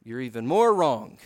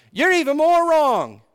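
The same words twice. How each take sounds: First: Said in the usual way. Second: High, loud, slow mock outburst; corrected angry take. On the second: Shown as a demonstration. Wife imagined accusing the king, angry mock shout. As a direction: hammer out the accusation at full voice. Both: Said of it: "It didn't sound right".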